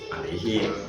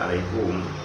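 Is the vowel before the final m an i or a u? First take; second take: i; u. First: The vowel before the final m is i. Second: The vowel before the final m is u. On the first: This is the standard grammatical reading. "Kalau di Nahwu alaihim" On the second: This is the reading some other reciters use. "tapi ada yang baca alaihum"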